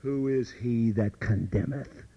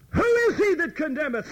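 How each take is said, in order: First: Lower, slow, rising question; "Who is he that condemneth?" asked low and slow, rising at the end; low quoted question. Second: Much higher, louder, falling; "Who is he that condemneth?" thrown out high with a falling end; high emphatic question. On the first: Paul quoted asking, low and slow rising question. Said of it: "Paul asks". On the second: Preacher repeating Paul's question to the congregation, high emphatic fall. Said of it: "repeats Paul's question". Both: Shown as a demonstration.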